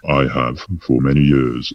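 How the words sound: It is said in a put-on deep voice.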